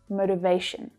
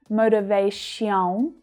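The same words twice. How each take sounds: First: The last syllable has a short, reduced schwa vowel. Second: The last syllable has a full, unreduced vowel. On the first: The speaker calls it right. "The vowel sound reduces right down to the schwa, so it's short and low in pitch" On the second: The speaker calls it wrong. "It's not motivation"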